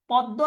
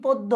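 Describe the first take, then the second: First: পদ্ম as "pɔddo", open ɔ; open o sound. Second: পদ্ম as "poddo", close o; close o sound. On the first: Teacher asking students to choose, পদ্ম with open ɔ. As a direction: open the first vowel of পদ্ম. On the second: Teacher offering the second choice, পদ্ম with close o. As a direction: round the first vowel of পদ্ম. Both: Shown as a demonstration. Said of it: "এটার উচ্চারণ কিন্তু এরকম হবে".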